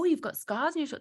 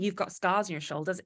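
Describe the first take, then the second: First: It sounds curious. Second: It sounds disgusted.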